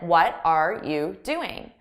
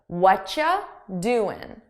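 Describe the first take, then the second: First: Every word is said fully and separately. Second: The first words merge into one reduced sound. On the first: "this is easier for me to say than" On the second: "I combine the sounds into one"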